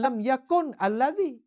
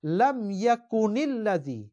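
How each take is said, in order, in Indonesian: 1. Yakun berakhir dengan n mati sebelum kata berikutnya. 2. Vokal i penyambung menghubungkan yakun dengan kata berikutnya. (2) "Pengarang Quran kata"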